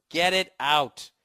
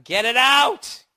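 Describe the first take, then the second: First: Slow, measured repeat at normal pitch; insistent demand. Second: Loud, high, drawn-out plea; frantic demand. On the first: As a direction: stretch each word out firmly. Repeats the plea more controlled. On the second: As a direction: yell it, rising and stretched out. Acting horrified patient begging doctor. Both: Acted.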